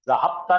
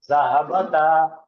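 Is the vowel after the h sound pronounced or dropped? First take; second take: dropped; pronounced. First: The vowel after the h sound is dropped. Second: Every letter is said with its full vowel. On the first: The speaker calls it wrong. "नहीं पढ़ेगा" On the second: The speaker calls it right. "हरकत के साथ पढ़ा जाए ... ज़हाबता ऐसा पढ़ना"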